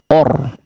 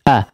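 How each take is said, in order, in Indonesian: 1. Vokalnya berat dan membulat ke arah o. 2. Vokalnya terang dan terbuka seperti a. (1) "jangan sampai ikut menebal, or or ya, jangan menjadi o" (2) "silakan sempurnakan untuk harakat fathahnya, a ya"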